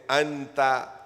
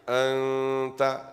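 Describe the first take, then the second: First: The n sound is pronounced fully and clearly. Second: The n sound is hidden into a nasal hum. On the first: The speaker calls it wrong. "Don't say Anta" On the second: The speaker calls it right. "this is Ikhfa"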